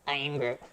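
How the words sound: It is said in a baby Groot voice.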